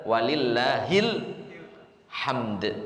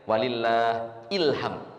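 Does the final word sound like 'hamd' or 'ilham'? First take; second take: hamd; ilham. First: The phrase is linked to end in 'hamd'. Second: The phrase is split to end in 'ilham'. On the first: The speaker calls it right. "Tapi yang benar" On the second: The speaker calls it wrong. "Jadi seolah ilham ya"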